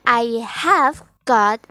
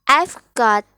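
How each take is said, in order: First: 'I have' is said as two full words. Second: 'I have' is contracted into one syllable.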